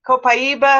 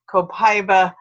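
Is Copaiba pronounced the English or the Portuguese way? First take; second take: Portuguese; English. First: It is said with a Brazilian Portuguese pronunciation. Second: It is said with an English pronunciation. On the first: This is how it is said in Brazil. "It's Copaiba in Brazil... is the that pronunciation" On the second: This is how English speakers say it. "is the English pronunciation"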